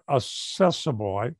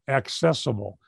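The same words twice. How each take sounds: First: It begins like 'assess', without a k sound. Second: It begins with a clear 'ak' sound. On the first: The speaker calls it wrong. "Sometimes I say that wrong" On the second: The speaker calls it right.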